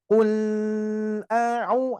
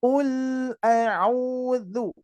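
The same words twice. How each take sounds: First: "ul" with the l dragged on too long; over-stretch the l in "ul"; "ul, a'u" with a long drawn l; lam held too long. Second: "Ul" with the l flowing just a little; short flowing lam. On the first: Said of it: "itu terlalu lama". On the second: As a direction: keep the l in "Ul" brief and smooth. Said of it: "Ini sedikit saja". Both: Shown as a demonstration.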